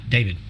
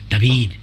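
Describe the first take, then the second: First: The name is said with an English pronunciation. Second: The name is said with a Spanish pronunciation. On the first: This is how the name is said in English. "not David" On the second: This is how the name is said in Spanish-speaking countries. "if you go to Mexico or Spain, my name is David"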